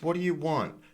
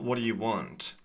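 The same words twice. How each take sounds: First: The final T in want is not released. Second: The final T in want is clearly released. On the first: The speaker calls it right. "the T is not released" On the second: The speaker calls it wrong.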